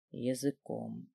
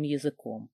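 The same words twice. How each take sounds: First: Slow, low, very soft single word; ЯЗЫКОМ drawn out low and hushed; hushed echo. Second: Said in the usual way. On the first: A narrator's reading. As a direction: linger on ЯЗЫКОМ, dropped almost to nothing. Word echoed as his thought lingers.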